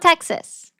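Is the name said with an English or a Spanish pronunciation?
English. The name is said with an English pronunciation. The speaker calls it wrong. "It's not Texas"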